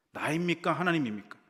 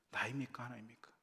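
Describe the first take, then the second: First: 나입니까 and 하나님입니까 thrown out high and loud; 나입니까 하나님입니까 both high and loud; loud question. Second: 나입니까 soft, 하나님입니까 in a whisper; 하나님입니까 whispered almost silent; whispered repeat. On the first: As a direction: call out 나입니까, 하나님입니까 to the crowd. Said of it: "repeated softly". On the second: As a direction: drop 나입니까, 하나님입니까 to a hush. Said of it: "said loud first". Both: Shown as a demonstration.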